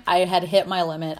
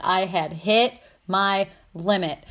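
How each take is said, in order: First: Said in the usual way. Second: I HAD HIT MY LIMIT spread out slowly, word by word; slow emphatic repeat. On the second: Real, not acted. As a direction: drag out "hit my limit" with pauses between words.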